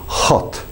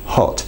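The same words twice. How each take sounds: First: The h is pushed with a strong breath. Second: The h is soft with little breath. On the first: The speaker calls it wrong. "The Russian can be... slightly over aspirated" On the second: The speaker calls it right. "it's not too overpronounced... Very light"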